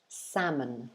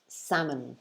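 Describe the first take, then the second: No difference in how they are said.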